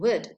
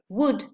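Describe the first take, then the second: First: The word is said with a reduced vowel. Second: The word is said with a full vowel. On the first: "the second one occurs occasionally as a weak form" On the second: "the first option coincides with the strong form"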